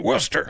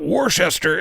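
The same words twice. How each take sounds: First: The name is said the local way. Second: The name is said the non-local way. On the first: The speaker calls it right. "it's actually" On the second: The speaker calls it wrong. "what we call it"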